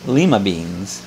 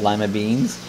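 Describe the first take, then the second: First: It is said imitating an English visitor's pronunciation. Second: It is said in the speaker's own American way.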